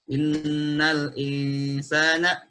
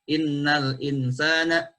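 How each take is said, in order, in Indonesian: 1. Huruf n dibaca dengan dengung hidung yang panjang. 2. Huruf n pendek, tanpa dengung hidung. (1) "itu dibaca dengan gunnah" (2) "ketika dibaca tanpa guna"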